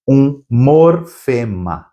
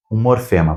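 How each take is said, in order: First: "um morfema" slowly, in separated pieces; slow, split word. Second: Said in the usual way. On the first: Shown as a demonstration. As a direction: stretch out "um... mor... fema". Teacher naming the key term.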